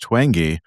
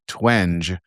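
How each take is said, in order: First: The G is a hard sound. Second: The G is a soft sound. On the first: The speaker calls it right. "it's twangy with a hard G" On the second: The speaker calls it wrong. "did pronounce it twenge"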